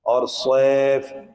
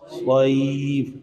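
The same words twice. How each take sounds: First: सैफ said slowly the Urdu way, as saif; the Urdu-style सैफ the students use; wrong Urdu pronunciation. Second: सैफ stretched very slowly with the proper Arabic sound; correct Arabic pronunciation. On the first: Teacher shows students the wrong way, slow Urdu-style सैफ. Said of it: "सैफ नहीं है". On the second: Teacher shows students the right way, slow Arabic-style सैफ. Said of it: "क्या है?". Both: Shown as a demonstration.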